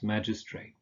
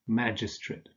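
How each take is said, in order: First: The final syllable is a full "ate" sound. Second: The final syllable is a weak "ut" sound. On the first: "magistrate can also be pronounced magistrate" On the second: "the same goes for nouns ending in ate"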